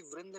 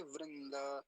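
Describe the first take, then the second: First: वृंद as vrind, no final vowel; wrong clipped ending. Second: वृंद as vrin-da, slow with final a; correct full ending. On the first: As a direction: stop वृंद on the d. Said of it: "नहीं बोलेंगे". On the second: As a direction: stretch वृंद and sound its last a. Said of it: "ऐसा बोलेंगे". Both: Shown as a demonstration.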